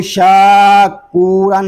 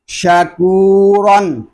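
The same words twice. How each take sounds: First: शाकूरन with a long शा; wrong reading. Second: शकूरन with short शा and long कू; correct reading. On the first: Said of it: "इसको शाकूरन नहीं पढ़ेंगे". (शाकूरन, लंबी शा के साथ ग़लत) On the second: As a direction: stretch only कू in शकूरन. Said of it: "इसको शकूरन पढ़ेंगे". (शकूरन, सिर्फ़ काफ़ खींचकर) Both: Shown as a demonstration.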